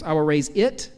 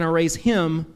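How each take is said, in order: First: It lifted with a rising tune; stress on it. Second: Him pressed with a falling tune; stress on him. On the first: Preacher contrasting pronouns, stressing "it" with a rise. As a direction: lean on "it" and let it rise. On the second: Preacher contrasting pronouns, stressing "him" with a fall. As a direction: land on "him" and let it fall. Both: Shown as a demonstration. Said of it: "those two pronouns".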